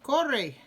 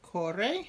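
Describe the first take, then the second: First: The word is said more firmly. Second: The word is said in a normal way. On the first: It is a command to run. "if I say it a little more firmly" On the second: Someone runs. "Corre is the he, she form"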